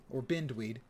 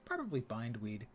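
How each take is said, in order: First: "Bindweed" with a short I, as in "binned"; offhand "Bindweed", first vowel as in "bin"; short-I pronunciation. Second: "Bindweed" with a long I, as in "find"; softer "Bindweed", first vowel as in "bind"; long-I pronunciation. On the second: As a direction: say "Bindweed" to rhyme with "signed-weed". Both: Shown as a demonstration.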